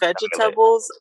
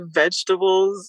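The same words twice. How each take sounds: First: The word is said with the speaker's accent. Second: The word is said the usual local way. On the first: This is how the speaker says it. "I say vegetables" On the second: This is how other people say it. "I don't say vegetables"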